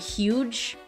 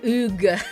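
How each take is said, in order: First: It is said like the English word 'huge'. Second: It is said with no h, like 'oog'. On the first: The speaker calls it wrong. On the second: The speaker calls it right.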